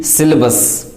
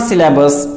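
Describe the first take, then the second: First: SYLLABUS as "SIL-uh-bus"; correct pronunciation. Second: SYLLABUS as "si-LA-bus"; mispronunciation. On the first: Teacher corrects learners, syllabus pronounced "SIL-uh-bus". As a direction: weaken the middle vowel of SYLLABUS. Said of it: "it is simply syllabus". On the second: Teacher rejects the common error, syllabus mispronounced "si-LA-bus". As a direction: open up the middle a of SYLLABUS. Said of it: "but it is not syllabus". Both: Shown as a demonstration.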